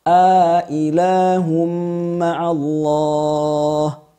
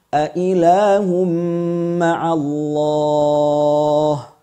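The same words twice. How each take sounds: First: The second hamza is full, with a long vowel before. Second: The second hamza is full, with no lengthening before. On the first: "Ailah at-tahqiq ma'al idkhal" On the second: "Wajah kedua at-tahqiq tanpa idkhal"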